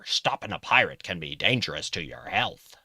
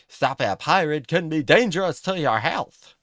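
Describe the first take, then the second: First: It is said in a gruff pirate voice. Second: It is said in a first put-on voice.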